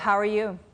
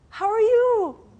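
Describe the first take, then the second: First: It is said in a gloomy, tired tone. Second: It is said in a cheerful, warm tone.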